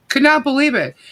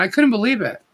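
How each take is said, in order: First: "not" split off and hit, the line pitched higher; stress on not. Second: Said in the usual way. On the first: Real, not acted. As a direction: lean hard on "not".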